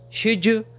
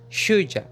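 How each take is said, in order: First: The last word ends in a full 'oo' vowel. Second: The last word ends in a reduced 'uh' vowel. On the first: "com o som do could you" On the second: "ou a"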